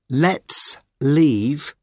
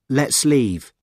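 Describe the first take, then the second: First: The two words are said separately. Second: The two words run together as one.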